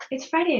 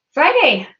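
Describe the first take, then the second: First: Said in the usual way. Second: Excited. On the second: Real, not acted. Cheering happy Friday greeting.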